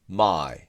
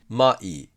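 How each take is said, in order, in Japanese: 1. 一つの音節で言います。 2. 二つの同じ長さの拍で言います。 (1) "英語の一拍を意識するんだったらこっちですね" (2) "日本語と同じようににひゃくにするんだったらこっち"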